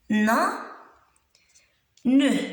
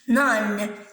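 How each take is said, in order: First: The word is split, final e sounded. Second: The word is joined, final e silent. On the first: "Quand je découpe, découpe le mot en syllabes, je peux dire ne" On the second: "Sans prononcer E"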